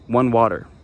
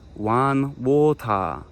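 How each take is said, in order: First: It is said with a plain English accent. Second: It is said with a Japanese accent.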